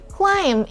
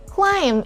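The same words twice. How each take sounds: First: The b sound is silent. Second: The same.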